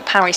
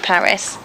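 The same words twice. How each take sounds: First: It is said with a French pronunciation. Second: It is said with an English pronunciation. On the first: It names the football team. "If you're talking about football teams, we often say Paris Saint-Germain" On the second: It names the city. "the way that we would say Paris"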